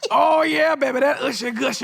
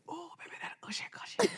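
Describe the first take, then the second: First: It is spoken aloud, not whispered. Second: It is whispered, breathy and close.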